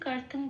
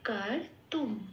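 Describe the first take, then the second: First: The word ends with an ng sound. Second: The word ends with an m sound. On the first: This is the Bengali way of reading it. "এটা বাংলায় বললাম" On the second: This is the Sanskrit way of reading it. "তাহলে এটা হয়ে গেল কার তুম"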